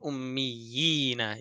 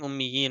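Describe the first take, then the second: First: The first ya sound is clearly emphasized. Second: The first ya sound is weak, not emphasized. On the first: The speaker calls it right. "you're emphasizing the first vowel because of the second vowel" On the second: The speaker calls it wrong. "instead of saying"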